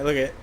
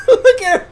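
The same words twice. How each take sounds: First: Said in the usual way. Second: Much higher and louder, through laughter; laughing. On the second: Real, not acted. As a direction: crack up mid-phrase. Breaks into laughter.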